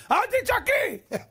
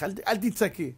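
First: High, drawn-out hammed-up screech; mock yelling. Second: Said in the usual way. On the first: Husband screeching at his wife to stop shouting, mock yelling. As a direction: imitate yelling while telling her not to yell. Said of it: "אז למה אתה צועק?".

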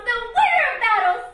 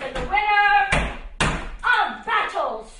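First: Sung, high, loud sing-song repeat; sung, loud gleeful singsong; sung echo. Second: Slow declaiming. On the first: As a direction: sing the phrase in delight. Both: Acted.

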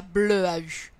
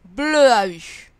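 First: "bleu à U" repeated at normal volume, less drawn out, falling; puzzled repeat. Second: "Bleu à U" dragged out slowly and loud as one glued run of sounds; letter-by-letter blending. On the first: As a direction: repeat bleu à U more casually, as an unknown word. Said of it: "Je ne vois pas ce que c'est ça". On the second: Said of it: "en collant les sons dans l'ordre". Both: Shown as a demonstration.

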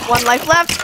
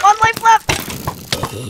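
First: Said in the usual way. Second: Very slow ominous drawl; dramatic slow warning. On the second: Pretend. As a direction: stretch it out ominously.

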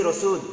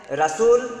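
First: রসুল with rounded o, "Ro-sul"; correct pronunciation. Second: রাসূল high and loud, as "Ra-sul"; incorrect pronunciation. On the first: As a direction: round the first vowel of রসুল. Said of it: "আর শুদ্ধ উচ্চারণ দিয়েছি". (শুদ্ধ উচ্চারণে "রোসুল") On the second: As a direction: open the first vowel of রাসূল to a. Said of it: "এটা অশুদ্ধ দিয়েছি". (ভুল উচ্চারণে "রাসূল") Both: Shown as a demonstration.

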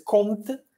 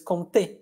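First: "comte" with the final vowel dropped, said "komt"; the mistaken version, "comte" without the é; wrong pronunciation. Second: "comté" with the final é fully pronounced and stressed. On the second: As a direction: land on the last syllable of "comté". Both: Shown as a demonstration. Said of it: "no es comte".

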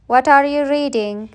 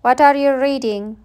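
No difference in how they are said.

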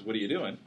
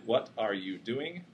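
First: Words run into each other quickly; smashed together. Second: Slow, separated words; carefully enunciated. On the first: Lecturer contrasting with the careful version, words smashed together. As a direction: slur it into one quick casual unit. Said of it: "all sort of smashed together". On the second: Lecturer contrasting two understandable utterances, clearly enunciated. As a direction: pronounce each word fully and apart. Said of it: "enunciating nicely". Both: Shown as a demonstration.

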